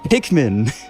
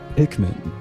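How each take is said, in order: First: The word is drawn out with a moaning sound. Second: The word is said in a low-pitched voice. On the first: "It just makes it moaning and groaning" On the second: "That was just low"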